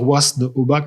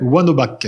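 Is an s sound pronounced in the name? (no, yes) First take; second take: yes; no. First: The name is said with an s sound. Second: The name is said without any s sound. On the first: This follows the spelling but is not used. The speaker calls it wrong. "ça pourrait se dire Wasn-Obac, mais ça se dit pas" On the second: This is how locals say it. The speaker calls it right. "il y a des S, mais on les dit pas chez nous"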